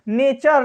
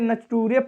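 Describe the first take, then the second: First: It is said with a 'ch' and 'er' ending. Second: It is said with a 't' and 'oo-ray' ending. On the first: The speaker calls it right. "ये क्या है" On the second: The speaker calls it wrong. "नटूरे फटूरे नहीं है बाबू"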